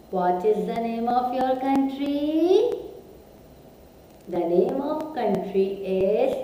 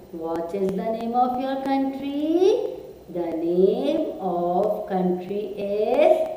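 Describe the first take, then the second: No difference in how they are said.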